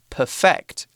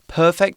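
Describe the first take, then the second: First: The stress is on the second syllable. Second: The stress is on the first syllable. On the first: It is used as a verb. "we put the emphasis on the end of the word" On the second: It is used as an adjective. "we put the emphasis on the beginning of the word"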